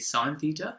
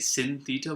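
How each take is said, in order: First: The first word rhymes with 'fine'. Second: The first word rhymes with 'pin'. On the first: The speaker calls it right. "we say sine theta, because that's actually the full name" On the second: The speaker calls it wrong. "we don't say sin theta"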